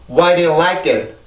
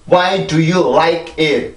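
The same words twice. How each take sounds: First: It is said quickly, words run together. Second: It is said slowly, word by word. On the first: "빨리요" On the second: "이렇게 하는 거는 이제 처음 영어를 배운 사람들이 그렇게 하는 거고"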